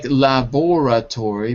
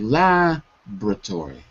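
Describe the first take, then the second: First: The vowel after 'lab' is clearly pronounced. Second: The vowel after 'lab' is dropped entirely. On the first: The speaker calls it wrong. "It looks like laboratory, but we don't say it like that" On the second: The speaker calls it right. "We say laboratory. Labra"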